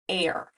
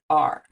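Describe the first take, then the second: First: The vowel is a long 'air' sound. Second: The vowel is an 'ar' sound. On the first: The speaker calls it wrong. "if we said this word the way we'd expect it to sound" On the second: The speaker calls it right. "We say the word are"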